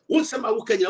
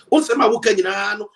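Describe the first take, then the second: First: Said in the usual way. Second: Loud insistent repetition of "Unsema wo kanyina"; louder emphatic repeat. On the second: Real, not acted. Repeats the phrase, louder the second time.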